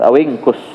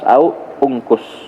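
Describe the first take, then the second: First: The two words run together without a break. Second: The two words are split with a break. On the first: "kalau kita sambung" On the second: "Kalau kita lepas"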